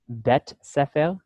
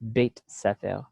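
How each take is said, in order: First: The first word has a plain 'eh' vowel. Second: The first word has an 'ay' glide vowel. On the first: "you could say bet, bet sefer" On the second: "or you could say beit sefer"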